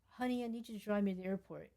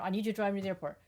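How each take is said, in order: First: It sounds sweet and nice. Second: It sounds blunt and demanding.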